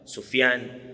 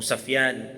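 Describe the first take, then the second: First: The first syllable has the vowel u. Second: The first syllable has the vowel a.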